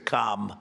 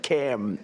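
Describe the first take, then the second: First: The vowel is long and open, like palm. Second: The vowel is short and front, like ham. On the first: This is a different person's name. The speaker calls it wrong. "we don't like Calm" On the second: This is the other person's name. The speaker calls it right. "Cam, as opposed to Calm"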